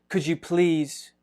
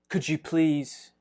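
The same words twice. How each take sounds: Both takes have the same delivery.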